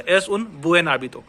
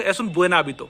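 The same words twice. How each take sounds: First: Slow "Es un buen hábito", words apart; slow speech. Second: Quick, joined-up "Es un buen hábito"; faster speech. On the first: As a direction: keep buen separate from hábito. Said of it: "धीरे से बोल रहा हूं". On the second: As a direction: run "Es un buen hábito" together. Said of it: "जब मैं fast बोलूंगा". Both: Shown as a demonstration.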